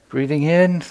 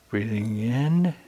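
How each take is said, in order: First: It sounds doubtful and skeptical. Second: It sounds unsure and hesitant.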